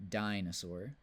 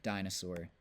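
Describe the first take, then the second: First: "dinosaur" with the stress moved later, rising at the end; stress shift. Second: "dinosaur" stressed on the first syllable; stress demo. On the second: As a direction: read "dinosaur" with the weight on DI. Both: Shown as a demonstration. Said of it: "it can be found on any vowel".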